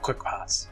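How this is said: The R in parts is soft and barely heard. "We pronounce our R's kind of soft sometimes"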